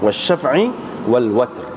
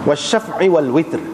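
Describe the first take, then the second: First: The last word has an 'a' vowel after w. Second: The last word has an 'i' vowel after w. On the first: This is the reading of most reciters. "dengan baris di atas waw tu" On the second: This is the reading of a minority of reciters. "mengikut qiraat Hamzah dan Kisai, eh, wal witr"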